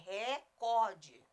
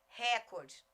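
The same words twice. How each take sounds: First: The stress is on the second syllable. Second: The stress is on the first syllable. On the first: The speaker calls it right. "a palavra é recorde" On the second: The speaker calls it wrong. "dizer assim, ó, recorde"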